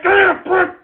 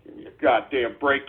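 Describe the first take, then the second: First: Much higher, pleading and fed up; exasperated cry. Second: Much softer and lower, a weary grumble; soft low grumble before it builds; muttered exasperation. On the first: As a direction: push it up high, at the end of your rope. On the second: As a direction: grumble it under your breath, worn out. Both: Acted. Escalating repeated exasperation.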